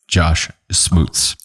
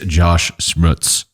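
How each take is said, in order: First: The surname starts with sm and rhymes with boots. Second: The surname starts with shm and rhymes with cuts. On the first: The speaker calls it right. "I will retrain myself to say Smoots" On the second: The speaker calls it wrong. "I just butchered your name"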